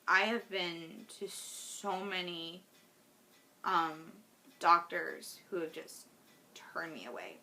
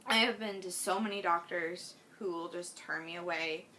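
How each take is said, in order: First: Fighting tears as the words fade; holding back tears. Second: Said in the usual way. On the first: Real, not acted. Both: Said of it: "I'm gonna try not to cry".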